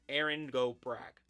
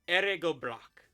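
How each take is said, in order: First: The phrase is pronounced with English-style sounds. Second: The phrase is pronounced with Irish-style sounds. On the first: "A more anglicized version of it" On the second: "I probably very much mispronounced that"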